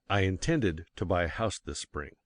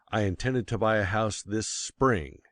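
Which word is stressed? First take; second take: intended; spring. First: The stress is on the word intended. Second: The stress is on the word spring.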